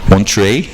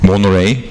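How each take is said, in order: First: The name has a clear t sound. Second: The name has no t sound.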